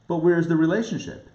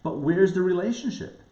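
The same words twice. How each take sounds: The two takes are said the same way.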